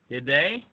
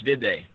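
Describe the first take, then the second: First: The voice rises at the end like a question. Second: The voice falls at the end like a statement. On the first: It is a real question asking for an answer. The speaker calls it wrong. "you think you have to ask it like" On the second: It is a statement phrased as a question. The speaker calls it right. "you don't say it with the question lilt at the end"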